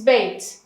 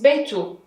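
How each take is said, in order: First: The word ends in a bare t sound. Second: The word ends in t followed by u. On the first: "Without dhamma, it is bait" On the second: "With dhamma, it is beitu"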